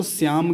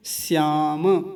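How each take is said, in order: First: श्याम as "syam", closed on m; halant ending. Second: श्याम slowly as "syaa-ma"; full ma. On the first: Teacher showing a halant, श्याम as "syam". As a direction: drop the final vowel of श्याम. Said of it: "अगर हलंत होता तो श्याम कह देते". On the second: Teacher keeping the whole ma, श्याम as drawn-out "syaa-ma". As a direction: open the last m of श्याम into "ma". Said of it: "और पूरा रखना है म को". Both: Shown as a demonstration.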